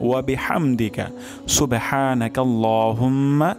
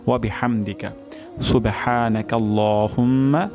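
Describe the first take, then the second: No difference in how they are said.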